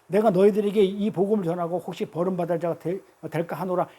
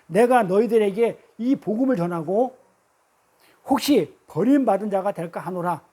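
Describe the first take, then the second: First: It is read at a normal speed. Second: It is read slowly.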